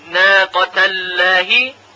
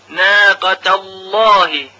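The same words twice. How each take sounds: First: The L is pronounced light and thin. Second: The L is pronounced heavy and full. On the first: The speaker calls it wrong. "اگر بگوییم ناقت اللهی غلط حساب میشه" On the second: The speaker calls it right. "لام تفخیم یا تغلیظ میشه"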